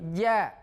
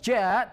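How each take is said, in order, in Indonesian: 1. Konsonan dilepas dengan bersih, tanpa udara yang keluar. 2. Konsonan dilepas dengan desis napas. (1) "tapi ja" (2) "Banyak orang yang membunyikan huruf ja dengan hamas, dengan desis, dengan keluar udara. Bukan ja"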